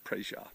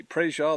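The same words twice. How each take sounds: First: Quiet praise. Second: Loud praise. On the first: Pastor repeating praise Yah softly to himself, quiet. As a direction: murmur praise Yah to yourself. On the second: Pastor shouting praise Yah over the well news, loud. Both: Real, not acted.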